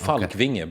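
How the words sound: The name has a Swedish pronunciation. The speaker calls it right. "It's a Scandinavian name"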